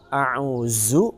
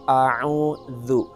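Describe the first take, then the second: First: The middle consonant is a z sound. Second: The middle consonant is a soft th sound. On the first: The speaker calls it wrong. "maka ini huruf za" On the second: The speaker calls it right. "Jadi kita membaca a'udzu"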